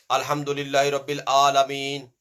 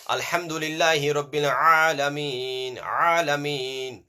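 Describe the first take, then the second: First: Chanted, ALAMEEN opening on a plain vowel; wrong Hamza pronunciation. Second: Chanted, throaty Ayn opening ALAMEEN; correct Ayn pronunciation. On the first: Teacher showing pupils the mistake, plain-vowel ALAMEEN. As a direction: chant ALAMEEN with no throat squeeze on the first A. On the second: Teacher correcting pupils' recitation, throaty Ayn in ALAMEEN. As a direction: squeeze the first A of ALAMEEN in the throat, drawn out. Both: Shown as a demonstration. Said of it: "It's not Alameen".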